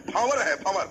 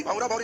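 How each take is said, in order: First: 'भंवर' said firmly, ending on the r with no added vowel; corrected standard form. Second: 'भंवरा भंवरी' with drawn-in colloquial -रा and -री endings; ठेठ colloquial form. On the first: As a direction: stress 'भंवर' as the correct word. ('भंवर' पर ज़ोर, शुद्ध रूप, अंत में रा या री नहीं) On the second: ('भंवरा भंवरी', ठेठ बोली वाले रा-री अंत के साथ) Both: Shown as a demonstration. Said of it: "भंवरा भंवरी मत बोलो".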